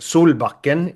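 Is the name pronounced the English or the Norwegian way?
Norwegian. The name has a Norwegian pronunciation. "the Norwegian way to actually pronounce it"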